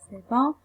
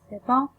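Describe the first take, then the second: The two takes are said the same way.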